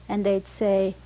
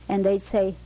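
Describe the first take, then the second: The two takes are said the same way.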